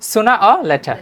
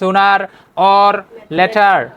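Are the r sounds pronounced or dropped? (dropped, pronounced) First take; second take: dropped; pronounced. First: The r sounds are dropped. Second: The r sounds are fully pronounced. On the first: The speaker calls it right. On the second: The speaker calls it wrong.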